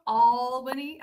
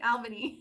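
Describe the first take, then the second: First: Albany with a long, loud "All" at the front; Albany said as "All-bany". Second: Said in the usual way. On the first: Shown as a demonstration. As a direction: open Albany with the vowel of "all", drawn out. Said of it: "All, it's not A L L". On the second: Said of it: "It's A L".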